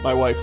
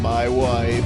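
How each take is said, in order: First: It is said in a normal, natural voice. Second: It is said in an exaggerated put-on foreign accent. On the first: The speaker calls it wrong. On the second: The speaker calls it right.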